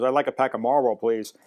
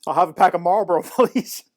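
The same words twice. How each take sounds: First: Said in the usual way. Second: Higher, louder needling request, ending on a high, laughing please; cheeky mock politeness. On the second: Narrator copying the refused customer to provoke the owner, cheeky. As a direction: tease with an over-polite order.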